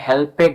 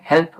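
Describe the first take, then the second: First: The ending is said as an extra syllable. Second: The ending is a single consonant sound. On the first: The speaker calls it wrong. "হেল্পেড বলছে না" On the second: The speaker calls it right. "এখানে হেল্প উচ্চারণ করছি"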